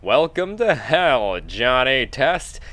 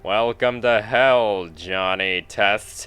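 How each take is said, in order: First: It is said in a bright, cheerful voice. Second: It is said in a very deep, flat voice. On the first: The speaker calls it wrong. "I was actually quite cheerful" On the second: The speaker calls it right. "he says in the deepest monotone"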